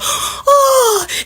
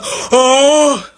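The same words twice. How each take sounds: First: The voice is higher and lighter. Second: The voice is low and deep. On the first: "it's never just like a oh" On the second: "it's always just like a oh"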